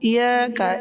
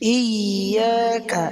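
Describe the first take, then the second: First: The y sound is single and short. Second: The y sound is held doubled. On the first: The speaker calls it wrong. "যদি কেউ বলে ইয়াকা ইয়াকা এরকম" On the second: The speaker calls it right. "এখানে ইয়া দুইবার হবে"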